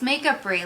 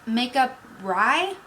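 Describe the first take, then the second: First: The last syllable sounds like 'free'. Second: The last syllable sounds like 'rye'. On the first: The speaker calls it right. "No. It's makeup free, like artistry" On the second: The speaker calls it wrong. "people tend to mispronounce it. They think it's makeup R Y"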